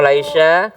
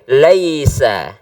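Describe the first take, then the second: First: The middle consonant is an sh sound. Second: The middle consonant is an s sound. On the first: The speaker calls it wrong. "Kalau sya ada titiknya tiga" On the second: The speaker calls it right. "jadi ini nggak pakai titik"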